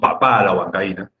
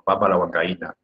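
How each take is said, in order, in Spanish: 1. El acento está en la última sílaba de papa. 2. El acento está en la primera sílaba de papa. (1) "No decimos papá a la huancaína" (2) "la papa de comer"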